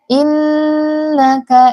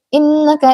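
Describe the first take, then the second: First: The nasal sound is held for two beats. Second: The nasal sound is rushed and cut short. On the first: The speaker calls it right. "kadar gunnah itu adalah dua harokat" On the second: The speaker calls it wrong. "jangan cepat-cepat, jangan innaka idza"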